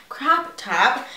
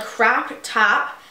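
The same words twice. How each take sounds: First: Said in the usual way. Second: Crop top said weirdly, slow and drawn out; oddly said. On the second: Real, not acted. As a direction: stretch out "crop top" in an odd, dragged way. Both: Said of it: "Why did I say that so weird".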